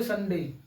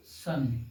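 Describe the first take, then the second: First: Said in the usual way. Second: Sunday split in two, long pause between सं and डे; syllable break. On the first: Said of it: "direct बोले Sunday". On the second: Shown as a demonstration. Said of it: "आप दो बार break लेंगे". (Sunday को दो टुकड़ों में रुककर बोलें)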